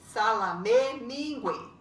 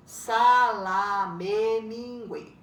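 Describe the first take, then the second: First: Said in the usual way. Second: "Salame, mingue" stretched beat by beat, Sa-la-me-min-gue, loud at the start; drawn-out syllables. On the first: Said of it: "Essas estão juntas". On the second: Shown as a demonstration. Teacher showing one word, "Salame, mingue" stretched syllable by syllable. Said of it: "É uma palavra só".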